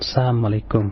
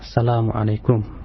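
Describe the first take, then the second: First: The greeting drops the la syllable. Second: The greeting keeps the full word salam. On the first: Destruction be upon you. The speaker calls it wrong. "bukan Assalamualaikum. Sebab kalau Assalamualaikum artinya jadi kebinasaan buat kamu" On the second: Peace be upon you. The speaker calls it right. "Biasakan Pak ya untuk mengucapkan salam dengan tepatnya"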